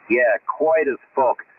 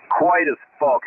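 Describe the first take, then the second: First: Slow emphatic repeat. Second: Said in the usual way. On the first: Shown as a demonstration. On the radio to mates, slow emphatic repeat.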